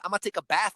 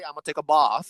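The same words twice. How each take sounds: First: It is said in an American accent. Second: It is said in an English accent.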